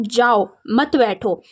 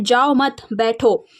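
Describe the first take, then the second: First: Slow, जाओ alone, then मत बैठो as one phrase; pause after जाओ. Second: जाओ मत joined, pause, then बैठो alone; pause after मत. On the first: (जाओ के बाद रुककर, मत बैठो एक साथ) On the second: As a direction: break after मत so that it goes with जाओ. (जाओ मत एक साथ, फिर रुककर बैठो) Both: Shown as a demonstration. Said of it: "और एक इसका अर्थ हो सकता है".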